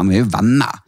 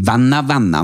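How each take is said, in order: First: Said in the usual way. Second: "venner, venner" stressed as one doubled term; doubled emphasis. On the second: Shown as a demonstration. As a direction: lean on "venner, venner" to mean real close friends. Distinguishes close friends from just friends. (trykk på begge i «venner, venner»)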